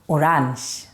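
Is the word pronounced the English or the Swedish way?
Swedish. The word is said with a Swedish pronunciation. "but we pronounce it the Swedish way"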